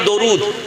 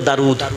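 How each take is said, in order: First: The first vowel is an o sound. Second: The first vowel is an open a sound. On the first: This is the Bengali way of saying it. "বাংলায়" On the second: The first letter is read thin. "দালকে বারিক করে পড়ি তো"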